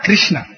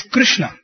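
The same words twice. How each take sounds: First: "Krishna" with an "ee" vowel; wrong pronunciation. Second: "Krishna" with short "Kru" start; correct pronunciation. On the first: Singer showing what to avoid, "Kreeshna". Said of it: "and not Krishna". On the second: Singer teaching the emphasis Swami wanted, "Krushna". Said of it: "It's Krishna and not Krishna". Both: Shown as a demonstration.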